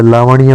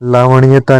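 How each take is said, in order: First: लावण्य without any ता; correct word. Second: लावण्यता with an extra ता; wrong word. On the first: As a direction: end लावण्य on ण्य. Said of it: "होता है". (लावण्य, बिना ता) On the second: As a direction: add ता to make लावण्यता. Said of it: "नहीं होता है". (लावण्यता, ता के साथ) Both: Shown as a demonstration.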